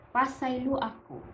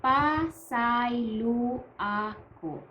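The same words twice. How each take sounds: First: Said in the usual way. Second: Slow, drawn-out "Pasaylo ako", each syllable held; slow demonstration. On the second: Shown as a demonstration. Teacher introduces the formal apology to learners, slow demonstration. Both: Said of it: "the formal way of saying".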